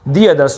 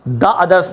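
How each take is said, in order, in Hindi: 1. 'The' को लंबे 'thee' स्वर के साथ बोला जाता है। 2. 'The' को छोटे 'thuh' स्वर के साथ बोला जाता है। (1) "दी अदर्स बोला" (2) "द अदर्स नहीं बोला"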